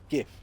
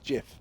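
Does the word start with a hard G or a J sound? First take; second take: hard G; J sound. First: It starts with a hard G sound. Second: It starts with a soft J sound. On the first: The speaker calls it right. "so that's why it's a G, not a J" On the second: The speaker calls it wrong. "not a not a GIF"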